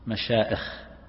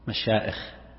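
First: The middle sound is a glottal stop. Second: The same.

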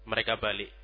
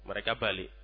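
Both takes have the same delivery.

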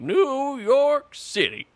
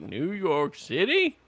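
First: It falls at the end, sounding definitive. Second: It rises at the end like a question.

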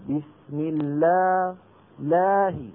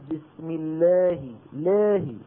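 First: The long a vowel is fully open, jaw wide. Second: The long a vowel is narrowed, mouth barely open. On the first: The speaker calls it right. "يجب أن يقول" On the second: The speaker calls it wrong. "هذا ما فتح فمه"

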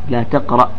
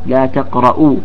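First: The verb ends with no final vowel. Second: The verb ends with a short u vowel. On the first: It is a prohibition. "بالتسكين" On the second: It is a statement of negation. "وجاء أيضا بالنفي"

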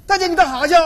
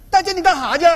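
No difference in how they are said.

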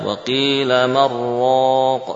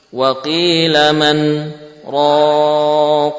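First: The n merges into r with no pause. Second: A short pause comes before raq. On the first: The speaker calls it wrong. "Mestinya apa?" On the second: The speaker calls it right. "Ini wajib juga"

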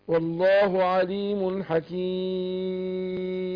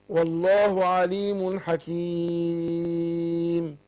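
Both takes have the same delivery.

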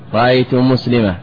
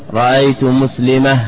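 No difference in how they are said.

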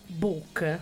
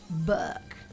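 First: The word is said with a British accent. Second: The word is said with an American accent. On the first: "tu sai che in inglese si dice book" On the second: "in America c'è questa pronuncia che è diversa"

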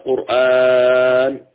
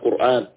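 First: The vowel after the hamza is drawn out. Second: The vowel after the hamza is kept short. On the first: The speaker calls it wrong. "فلا تقرأ قرآن بالطول أو التوسط" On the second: The speaker calls it right. "وإنما قرآن"

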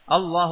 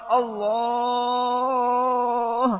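First: The long vowel is held for a short, normal length. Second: The long vowel is stretched out for a very long time. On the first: The speaker calls it right. "Matobi itu dua harokat" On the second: The speaker calls it wrong. "Karena yang panjang sekali. Sampai mungkin lama gitu"

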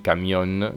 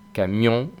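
First: It ends with an n made with the tongue. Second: It ends with a nasal vowel, no tongue contact. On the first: The speaker calls it wrong. "no digo balcón, ni camión" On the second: The speaker calls it right. "Digo Japón, camión y balcón"

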